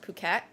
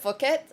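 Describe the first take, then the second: First: It begins with a plain p sound. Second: It begins with an f sound, like fuck. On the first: The speaker calls it right. "it's pronounced Phuket" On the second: The speaker calls it wrong. "I was pronouncing it Phuket, fuck, like literally"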